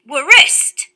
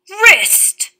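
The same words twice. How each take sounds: First: The word starts with a W then R sound. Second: The word starts with a plain R sound. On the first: This is how the word was said hundreds of years ago. "the people were all pronouncing the W and the R in these words" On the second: This is how the word is said today. "words with R spelt W-R"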